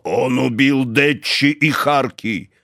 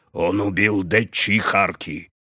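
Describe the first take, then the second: First: Slow, louder insistence; stubborn insisting. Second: Slow dull repetition; stubborn, flat insistence. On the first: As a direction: hammer the same words. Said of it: "Ганс твердил одно". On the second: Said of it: "повторил тупо, упрямо". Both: A narrator's reading.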